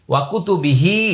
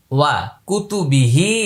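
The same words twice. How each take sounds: First: ওয়া কুতুবিহি in one unbroken phrase; joined up. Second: ওয়া কুতুবিহি broken up, pausing after "ওয়া"; word by word. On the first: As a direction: link "ওয়া" straight into "কুতুবিহি". (ওয়া কুতুবিহি একসাথে মিলিয়ে পড়া) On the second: (ওয়া কুতুবিহি ভেঙে আলাদা করে পড়া) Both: Shown as a demonstration. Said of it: "আমি প্রত্যেকটা আলাদা আলাদা করে বলছি".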